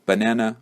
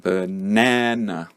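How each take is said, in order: First: Said in the usual way. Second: "Banana" said slowly, middle syllable na stressed, first and last syllables reduced to schwa. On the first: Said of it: "you didn't know the word banana". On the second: Shown as a demonstration. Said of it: "like that".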